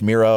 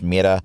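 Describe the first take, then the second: First: The r is a smooth English r sound. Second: The r is a quick tap, almost a d. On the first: "the English Mira" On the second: "the Spanish Mira"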